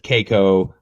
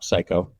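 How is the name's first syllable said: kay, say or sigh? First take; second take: kay; sigh. First: The first syllable sounds like 'kay'. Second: The first syllable sounds like 'sigh'. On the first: The speaker calls it wrong. "everybody says just like you said" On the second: The speaker calls it right.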